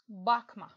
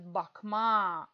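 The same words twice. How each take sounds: First: The stress is on the first syllable. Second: The stress is on the second syllable. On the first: Don't look. "ударение падает на первый слог" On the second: To look. "ударение падает на аффикс ма"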